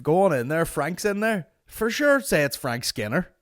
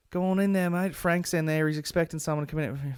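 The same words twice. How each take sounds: First: High, loud mock bloke; mock the guy's breezy wave-in; mock staff guy. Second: Higher, breezy bloke voice; breezy staff guy waving him in; mimicking the staff guy. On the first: Ranting to mate about the staff guy, high mocking voice. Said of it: "I was like". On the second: Staff guy waving comedian into the room, breezy and higher. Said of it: "the way he's like".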